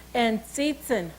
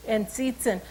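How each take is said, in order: First: Tsiitsin said slowly as sit-sin; saying Tsiitsin. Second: Tsiitsin repeated as sit-sin; saying Tsiitsin again. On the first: Teaching children the word for wolf, Tsiitsin sounded out slowly. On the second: Repeating the wolf word Tsiitsin for the class. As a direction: model Tsiitsin once more, clear ts. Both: Shown as a demonstration. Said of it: "When you say the word cats".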